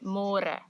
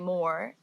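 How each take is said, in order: First: It is said with Afrikaans sounds, two syllables. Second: It sounds like the English word 'more'. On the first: The speaker calls it right. "say môre" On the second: The speaker calls it wrong. "because in English it's spelled like more. So don't say more"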